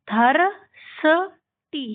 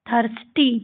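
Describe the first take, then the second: First: थर्सटी very slowly as thar, sa, tee; sounded out. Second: Said in the usual way. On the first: Shown as a demonstration. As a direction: break थर्सटी into three parts with pauses. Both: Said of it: "आपको इसको कैसे पढ़ना है".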